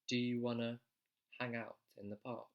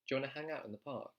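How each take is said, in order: First: The sentence is spoken slowly. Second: The sentence is spoken very quickly. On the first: "Let me say it slowly" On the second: "I know I'm saying that really quickly"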